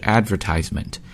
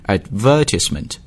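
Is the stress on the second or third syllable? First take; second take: third; second. First: The stress is on the third syllable. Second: The stress is on the second syllable. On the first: This is the American pronunciation. "美式英语呢读的是 advertisement" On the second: This is the British pronunciation. "if you're speaking British accent it's advertisement，重音呢落在这个 ver 上面"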